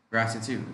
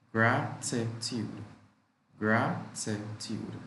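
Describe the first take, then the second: First: Said in the usual way. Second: Drawn out so learners hear every syllable; slow, syllable by syllable. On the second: Shown as a demonstration. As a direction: say it slowly, teaching each syllable. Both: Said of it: "Three syllables".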